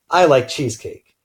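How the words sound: The stress falls on the word I. The speaker likes it but the listener may not. "emphasizing I"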